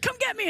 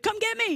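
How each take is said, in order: First: High, rushed little plea into the phone; quick kid phone plea. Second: High, rushed little plea into the payphone; quick kid phone plea. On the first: Kid on a collect call, high hurried plea. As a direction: squeak it out fast before hanging up. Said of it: "You'd be like". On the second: Kid saying name after the beep, high hurried plea. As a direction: squeak it out fast like a kid. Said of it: "and be like". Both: Retold or imitated.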